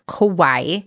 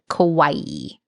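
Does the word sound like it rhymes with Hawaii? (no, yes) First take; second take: no; yes. First: It is said the common non-Japanese way. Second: It is said to rhyme with Hawaii. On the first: The speaker calls it wrong. "non-Japanese people often pronounce it as kawaii" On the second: The speaker calls it right. "closer to our pronunciation of Hawaii"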